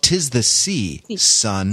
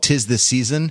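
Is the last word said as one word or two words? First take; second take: two words; one word. First: The last word is split into sea and son. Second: The last word is said as one smooth word. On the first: It addresses a son about the sea. The speaker calls it right. "It's called Tis the Sea, Son" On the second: It names the holiday season. The speaker calls it wrong. "isn't called Tis the Season"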